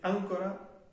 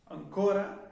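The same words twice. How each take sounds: First: The stress is on the first syllable. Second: The stress is on the second syllable. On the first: It is a different word with another meaning. "tiene el acento en la a" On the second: It means still or yet. "con el acento en la o"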